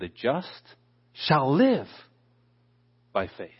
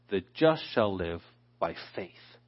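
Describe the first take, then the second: First: The stress is on the word live. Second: The stress is on the word faith.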